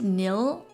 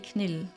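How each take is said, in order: First: The word starts with an N, K silent. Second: The word starts with a sounded K. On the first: "I pronounce it nil without the car, uh, the K" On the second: "If I were to pronounce it German, it would be Knill. With a K"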